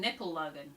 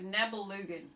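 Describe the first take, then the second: First: The second consonant is a hard p sound. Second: The second consonant is a soft b sound. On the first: "it sounds like they're saying Nippelungen" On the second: "how do you pronounce this?"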